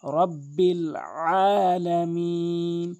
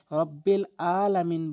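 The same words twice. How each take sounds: First: Chanted, রব্বিল আলামিন very slow, আইন from the throat; chanted, recite রব্বিল আলামিন slowly with a throat আইন; chanted correct recitation. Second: রব্বিল আলামিন with a plain glottal Hamza instead of আইন; wrong Alamin. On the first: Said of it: "এবং এখানে যে মারাত্মক ভুলটি". (chanted, রব্বিল আলামিন ধীরে, কণ্ঠ থেকে আইন) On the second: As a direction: say রব্বিল আলামিন carelessly, no throat sound. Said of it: "আইনের জায়গায় হামজা এনে". (ভুল উচ্চারণ, আইনের জায়গায় Hamza) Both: Shown as a demonstration.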